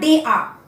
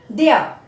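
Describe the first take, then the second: First: It is said as two full words. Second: It is said with the contracted form. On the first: The speaker calls it wrong. "not they are" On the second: The speaker calls it right. "we will say like this"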